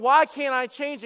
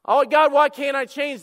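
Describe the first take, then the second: First: Louder, higher, slow mock complaint; frustrated whine. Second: Loud, higher mock wail to God; anguished shout. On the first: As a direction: whine at God, drawn out. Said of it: "sitting there going". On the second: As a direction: cry out in hammed-up despair. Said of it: "And God says dialogue".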